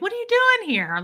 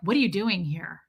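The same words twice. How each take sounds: First: It sounds friendly and pleasantly surprised. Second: It sounds hostile and suspicious.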